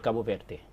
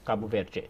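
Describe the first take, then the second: First: The d in Verde sounds like plain d. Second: The d in Verde sounds like a j. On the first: "somebody from Portugal would say" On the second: "From Brazil"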